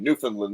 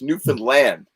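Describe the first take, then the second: First: The stress is not on the last syllable. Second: The stress is on the last syllable. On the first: This is how outsiders usually say it. The speaker calls it wrong. "everybody I know says Newfoundland" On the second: This is how locals say it. The speaker calls it right. "it's Newfoundland. You punch land"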